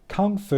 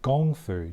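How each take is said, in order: First: The first word begins with a K sound. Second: The first word begins with a G sound. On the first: The speaker calls it wrong. "we know it as K U N G. It kind of got lost in translation" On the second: The speaker calls it right. "The more correct, correct pronunciation and spelling is more like Gong Fu"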